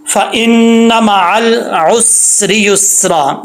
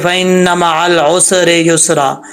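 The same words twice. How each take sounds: First: फ़इन्न मअल उसरि युस्रा slowly, long hummed n and held s without bounce; correct recitation. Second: Imitated wrong recitation, echoing vowel after s in उसरि युस्रा; mistaken qalqala. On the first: Shown as a demonstration. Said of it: "ऐसा नहीं पढ़ना". (उसरि युस्रा में सीन जमाकर, बिना कलकला तिलावत) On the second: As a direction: bounce the "स" in उसरि युस्रा as "usere yusera". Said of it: "सीन में कलकला कर रहे थे". (उसरि युस्रा में सीन पर कलकला वाली गलती)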